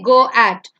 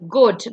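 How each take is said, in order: First: Both vowels are sounded, making two syllables. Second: Only the first vowel is sounded, one syllable. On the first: The speaker calls it wrong. "you don't say go at" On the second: The speaker calls it right. "the second vowel becomes silent"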